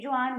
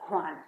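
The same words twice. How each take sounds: First: Juan with an English j, JOO-an; wrong English J. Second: Juan said as hwan, with a breathy h; correct Spanish J. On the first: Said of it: "We don't say Juan". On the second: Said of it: "we say Juan". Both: Shown as a demonstration.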